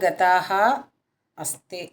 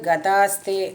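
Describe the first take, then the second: First: The words are split apart and said separately. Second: The words are fused into one joined form. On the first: "பிரித்து படிக்கிறது" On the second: "ஃபஸ்ட்டு லைன் வந்து கதாஸ்தே"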